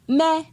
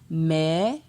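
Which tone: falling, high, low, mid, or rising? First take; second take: high; rising. First: The syllable has a high tone. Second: The syllable has a rising tone. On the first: "Ton haut" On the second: "Ton montant"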